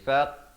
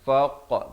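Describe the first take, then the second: First: The vowel sounds flat and spread. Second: The vowel sounds rounded and full. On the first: The speaker calls it wrong. "jangan pepeskan jadi faq, tak betul ya" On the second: The speaker calls it right. "faq bulatkan mulut"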